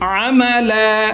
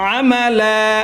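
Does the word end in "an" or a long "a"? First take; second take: long a; long a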